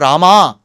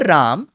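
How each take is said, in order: First: The word ends with a lengthened a. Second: The word ends with no final vowel. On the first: "nor Rama" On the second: "The North Indian pronunciation of Ram ... that is also wrong"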